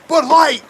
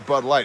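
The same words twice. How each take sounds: First: It is said with loud excitement. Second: It is said flatly, without excitement.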